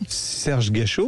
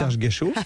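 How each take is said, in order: First: The name is said slowly and clearly articulated. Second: The name is said quickly in one rush. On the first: "Redites-le en phonétique" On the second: "Dites-le vite"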